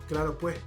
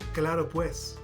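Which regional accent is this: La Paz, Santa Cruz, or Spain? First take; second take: Santa Cruz; La Paz. First: It is said in a Santa Cruz accent. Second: It is said in a La Paz accent. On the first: "if we're speaking in Santa Cruz, they say" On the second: "in La Paz, in Spanish, we say"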